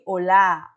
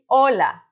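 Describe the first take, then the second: First: The stress is on the second syllable. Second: The stress is on the first syllable. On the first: This is how it is said in Portuguese. The speaker calls it wrong. "não de olá, olá, como em português. Tanto assim que em português tem uma tilde na A" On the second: This is how it is said in Spanish. The speaker calls it right. "a gente fala de hola"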